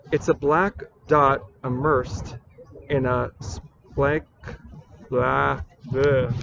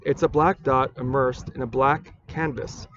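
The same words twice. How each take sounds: First: Slow, halting recital that falls apart; botched verse, breaking off into blah noises; flubbed poem reading. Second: Said in the usual way. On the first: Acted. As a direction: stumble on the line, then give up in nonsense syllables. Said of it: "I thought this was gonna be totally perfect". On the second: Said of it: "I will reread this poem".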